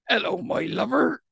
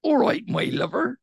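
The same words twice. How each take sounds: First: Higher-pitched, friendly Devon greeting; Devon accent. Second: Higher-pitched Bristol greeting; Bristol accent. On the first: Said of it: "whereas in Devon, we'd say". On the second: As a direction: greet them like a Bristol local. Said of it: "In Bristol, they'd say". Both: Shown as a demonstration.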